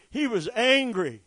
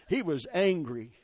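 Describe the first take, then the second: First: He was angry, pushed up and out; repeated line lifted to a near shout; louder, higher insistence. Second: Said in the usual way. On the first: Shown as a demonstration. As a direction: drive it home.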